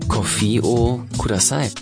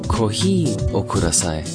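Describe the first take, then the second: First: Coffee is pronounced like the English word. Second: Coffee is pronounced the Japanese way, as kohi. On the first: The speaker calls it wrong. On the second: The speaker calls it right.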